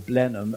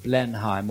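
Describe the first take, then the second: First: The name is said in the local British pronunciation. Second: The name is said in a non-local pronunciation.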